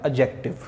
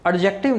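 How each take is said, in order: First: "एडजेक्टिव" as a-jektiv, no D heard; silent D. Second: "एडजेक्टिव" with an audible D before the J; D wrongly sounded. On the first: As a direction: drop the D, go straight to J in "एडजेक्टिव". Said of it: "ये डी silent होता है, इसको पढ़ते हैं". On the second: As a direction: say "एडजेक्टिव" as ad-jektiv. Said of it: "ये डी silent होता है". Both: Shown as a demonstration.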